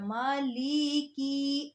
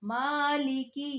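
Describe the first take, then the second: First: The vowel after the l is drawn out long. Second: The vowel after the l is kept short. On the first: The speaker calls it wrong. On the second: The speaker calls it right.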